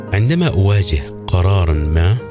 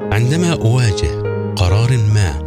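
Both takes have the same delivery.

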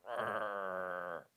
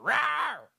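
First: It is a low, quiet growl. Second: It is a loud, full roar.

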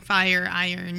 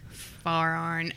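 First: Fire is said with a full gliding vowel. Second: Fire is said with a flat vowel, like far. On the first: The speaker calls it right. "pronounce the I's correctly" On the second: The speaker calls it wrong. "Are you even from Eastern Kentucky if you don't say far iron?"

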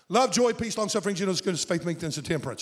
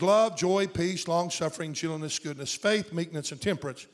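First: The list is said fast. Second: The list is said slowly.

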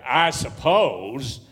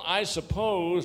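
First: It is said in a sarcastic tone. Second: It is said in a wary, cautious tone.

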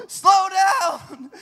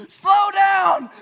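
No difference in how they are said.

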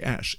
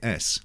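First: The S is slushy, close to an sh. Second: The S is a plain, crisp hiss. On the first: "within about a year of Cicely Berry, who's the voice coach there, they all say S" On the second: "they go there and they say S"

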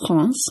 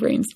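First: The name is said with a French pronunciation. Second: The name is said with an English pronunciation. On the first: The speaker calls it right. "is actually pronounced Reims" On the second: The speaker calls it wrong. "the incorrectly pronounced English pronunciation of Reims"

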